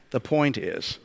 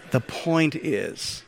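First: Said in the usual way. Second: "The point is" slowly through a laugh. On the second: Real, not acted. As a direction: still chuckling at his own joke. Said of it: "There's no way I could avoid that".

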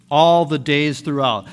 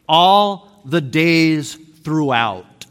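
First: Said in the usual way. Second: "All the days throughout" very slow, each word weighted; slow emphatic reading. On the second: Shown as a demonstration. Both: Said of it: "You want to hear the translation".

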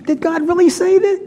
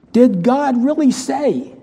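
First: Much higher, incredulous sneer; high mocking serpent voice; mocking tempter. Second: Slow, sly, questioning tempter; a hint of the sneering tempter; mock serpent voice. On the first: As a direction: scoff at it as the devil would. Serpent's taunt peaks. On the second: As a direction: drag out the doubt like the serpent. Voicing the serpent's words.

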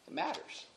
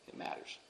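First: Said in the usual way. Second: Whispered, barely any voice; whispering. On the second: Shown as a demonstration. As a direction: drop it to a hushed whisper. Repeated, dropped to whisper.

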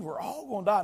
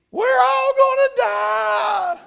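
First: Said in the usual way. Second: Put-on high, slow, loud panicked child's scream; little girl screaming. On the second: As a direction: wail it like a terrified little girl on the plane. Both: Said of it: "she was screaming at the top of her lungs".

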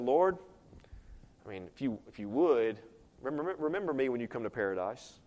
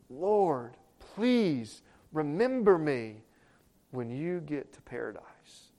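First: Soft, low, offhand mumbling request; mock half-hearted call. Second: Slow, drawn-out pleading; desperate plea. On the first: Preacher showing how the thief did not ask, half-hearted murmur. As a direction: ask it diffidently, stumbling over the start. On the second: Thief on the cross begging the Lord, slow earnest plea. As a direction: beg him, stretching each word. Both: Shown as a demonstration. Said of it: "You think that's how he said it?".

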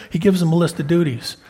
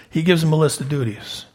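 The two takes are said the same way.

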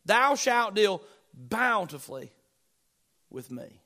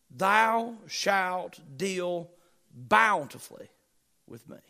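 First: Said in the usual way. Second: Very slow, each word stretched, fading to almost nothing; drawn-out reverence. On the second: Acted. Preacher lingers over David's last promise, very slow and fading. Preacher savours the final verse.

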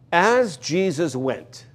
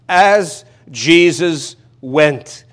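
First: Drawn out, measured reading; slow the phrase down to savour it; unhurried reading of As Jesus went. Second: As Jesus went, each word stretched and louder; louder, much slower retake of As Jesus went; very slow emphasis. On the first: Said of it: "that's the wonderful phrase in this". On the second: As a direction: lean on every word, very slowly. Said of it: "That's astounding and it's wonderful". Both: Shown as a demonstration.

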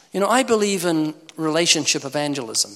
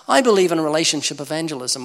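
First: Said in the usual way. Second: I believe in relationship evangelism with a louder, knowing twist; ironic punchline. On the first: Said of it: "where they say you build a relationship". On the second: Shown as a demonstration. Preacher turning the phrase on the congregation, louder with a wry twist. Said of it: "for one, maybe two minutes".

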